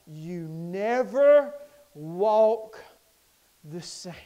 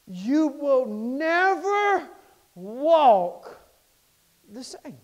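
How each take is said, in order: First: Slow chant fading to a hush; chanted, stretch never, drop the same; chanted line. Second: Slow, stretched preacher chant; chanted, draw out never and walk; hummed preacher cadence; chanted line. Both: Acted.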